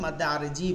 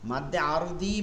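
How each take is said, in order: First: The second word has a Z sound. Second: The second word has a D sound. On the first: This is how Bengali speakers usually say it. "উচ্চারণটা বাংলায় করে আরে জি" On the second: This follows the original letter. "দি এটা দত"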